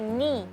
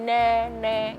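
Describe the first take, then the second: First: The syllable ends in an i vowel. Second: The syllable ends in an e vowel. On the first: The speaker calls it right. "dia ni" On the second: The speaker calls it wrong. "enggak ne"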